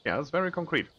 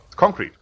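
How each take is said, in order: First: Said in the usual way. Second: "concrete" with a loud, high punch on CON; stress on the first syllable. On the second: Shown as a demonstration. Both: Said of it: "emphasis on the first syllable".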